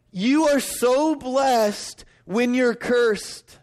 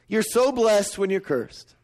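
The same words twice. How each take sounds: First: Slow, stretched and higher, stress on "You"; odd emphatic phrasing. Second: Slowed, weight on "so" in "You're so blessed"; stress on so. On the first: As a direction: lean on "You", drag out "You are so blessed when you're cursed". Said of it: "It sounds funny when I say it like this". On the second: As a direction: press the word "so", let the line fall. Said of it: "Doesn't that sound weird?". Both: Shown as a demonstration.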